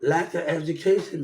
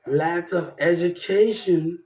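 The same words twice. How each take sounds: First: "lack of education" with a laugh. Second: "Lack of education" drawn out slowly, each word weighted; slow emphasis. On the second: Repeating his complaint about school, slow and pointed. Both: Real, not acted.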